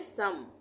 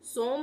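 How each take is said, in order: First: The vowel sounds like 'uh', as in sum. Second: The vowel sounds like 'oh', as in rope. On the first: The speaker calls it right. "इसको हम पढ़ेंगे सम" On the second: The speaker calls it wrong. "यहाँ पर हम इसको सोम नहीं पढ़ेंगे"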